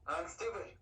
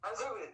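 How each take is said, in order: First: It is said slowly. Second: It is said quickly.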